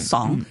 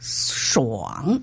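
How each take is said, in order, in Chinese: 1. sh 之后没有类似 w 的滑音。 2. sh 音之后有一个类似 w 的滑音。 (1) "不是爽" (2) "是爽"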